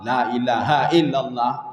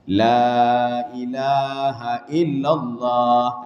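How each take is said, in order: First: The first vowel is cut short. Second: The first vowel is held long. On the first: The speaker calls it wrong. "La-nya pendek" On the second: The speaker calls it right. "La-nya kan panjang"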